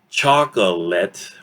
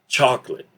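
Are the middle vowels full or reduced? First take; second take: full; reduced. First: All vowels are pronounced fully. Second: The middle vowels are reduced or dropped. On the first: "instead of saying chocolate" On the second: "we will tend to listen to this word as chocolate"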